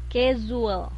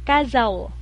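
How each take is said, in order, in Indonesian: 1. Kata itu diakhiri dengan bunyi 'oo-uh-l'. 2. Kata itu diakhiri dengan diftong 'ow'. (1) "U E, casual" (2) "kalau au itu bacanya jadinya kazau"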